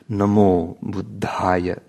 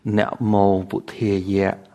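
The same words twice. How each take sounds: First: It is said with the Indic Pali pronunciation. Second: It is said with the Cambodian Pali pronunciation. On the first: "a so-called Indic or international pronunciation of Pali" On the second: "in the Cambodian context, that same phrase is pronounced"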